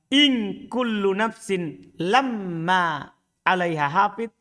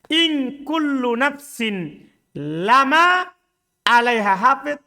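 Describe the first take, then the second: First: The m in lama is doubled and heavy. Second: The m in lama is short and light. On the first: There is no soul but has a guardian over it. "Kalau antum baca berat" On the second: Every soul surely has a guardian over it. "Ini dibaca ringan"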